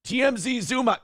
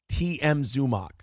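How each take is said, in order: First: "T M Z Zumock" with an extra Z, said higher and rising on M; mocking the wrong name. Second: "T M Zumock" said plainly, with no Z before Zumock; "T M Zumock" with the M stressed and falling; correct name. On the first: Host mocks the cohost's wrong "T M Z Zumock" in a high, rising voice. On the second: Host corrects the cohost's name, saying "T M Zumock" plainly. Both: Shown as a demonstration. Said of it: "I fucking hate that he keeps saying T M Z Zumock".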